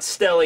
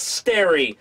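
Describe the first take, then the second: First: The middle consonant is an L sound. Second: The middle consonant is an R sound. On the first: "I guess not Stelly" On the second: "it's Sterry. ... L's and R's in Japan"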